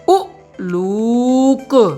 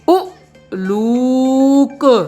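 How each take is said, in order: The two takes are said the same way.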